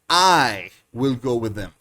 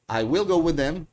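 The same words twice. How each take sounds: First: The stress is on the word I. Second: No word is given special stress.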